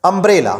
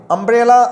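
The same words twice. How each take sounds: First: Said in the usual way. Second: umbrella repeated higher and louder; emphatic repeat. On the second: Shown as a demonstration. Teacher repeats umbrella higher and louder to the class.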